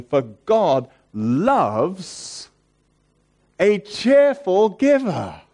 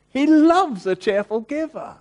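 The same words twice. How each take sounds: First: Slow, louder, higher, stretched out; fervent quote. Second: Much higher and louder, ringing out; a joyful, lifted cry; joyful exclamation. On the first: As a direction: let the verse swell with joy. Reading scripture with rising fervour. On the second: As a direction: burst out with delight on "loves". Restating the verse with joy. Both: Real, not acted.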